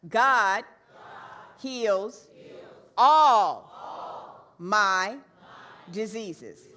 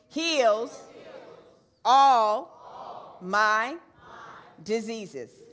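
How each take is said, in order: First: The word 'all' is stressed most. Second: The word 'heals' is stressed most. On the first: "let's say all on all this time" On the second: "Now let's put emphasis on heals"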